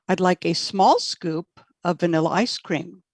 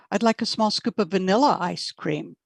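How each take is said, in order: First: The word small carries the main stress. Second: The word vanilla carries the main stress. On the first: The speaker wants a small scoop, not a big one. "Correct answer there is A" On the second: The speaker wants vanilla, not chocolate. "Correct answer would be not chocolate"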